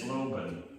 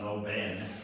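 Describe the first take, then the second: First: The last syllable has a weak schwa vowel. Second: The last syllable has a full, clear vowel. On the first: The speaker calls it right. "it's Loban ... It's uh, schwa" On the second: The speaker calls it wrong. "not Loben"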